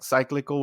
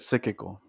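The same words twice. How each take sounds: First: The word begins like cycle, with an extra L. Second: The word begins like psychic, with no extra L. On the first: The speaker calls it wrong. "cyclical would be like a cycle" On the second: The speaker calls it right. "I said cyclical"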